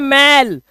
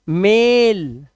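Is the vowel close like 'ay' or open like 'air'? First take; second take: open; close. First: The vowel is open, like in 'air'. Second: The vowel is close, like in 'day'. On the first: The speaker calls it wrong. "मैल नहीं है" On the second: The speaker calls it right. "मेल, ना कि मैल"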